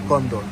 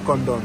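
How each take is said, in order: No difference in how they are said.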